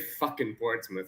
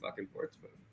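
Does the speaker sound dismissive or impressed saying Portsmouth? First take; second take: dismissive; impressed. First: It is said in a dismissive, scornful tone. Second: It is said in an impressed, admiring tone. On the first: The team is looked down on. The speaker calls it wrong. "I wouldn't say" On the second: The team is held in high regard. The speaker calls it right. "let's change the tone a bit. I'd say, ooh"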